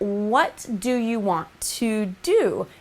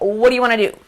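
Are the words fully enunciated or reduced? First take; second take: enunciated; reduced. First: Every word is pronounced fully and clearly. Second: The words are blended into a reduced form. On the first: It sounds more proper and professional. The speaker calls it right. "completely enunciate words like" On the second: It can seem a little unprofessional. The speaker calls it wrong. "instead of"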